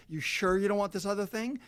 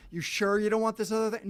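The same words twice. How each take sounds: First: High, nagging sales voice; mock pushy upsell. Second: Higher, louder, more insistent nagging; a store pestering a buyer, now louder and higher; louder mock upsell. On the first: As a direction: wheedle like a clingy store. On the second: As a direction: push the upsell even harder. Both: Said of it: "they ask you over and over".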